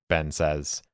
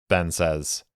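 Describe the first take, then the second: Both takes have the same delivery.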